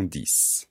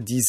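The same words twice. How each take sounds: First: The final consonant sounds like s. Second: The final consonant sounds like z. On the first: "on les prononce 6 et 10" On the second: "on prononce sise et dise"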